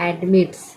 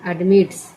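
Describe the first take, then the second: Both takes have the same delivery.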